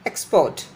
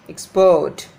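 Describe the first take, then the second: First: Export with the stress on EX; EXport, strong first syllable; noun stress. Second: Export with a louder -PORT; exPORT, strong second syllable; verb stress. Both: Shown as a demonstration. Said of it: "difference between the pronunciation of the noun and the verb".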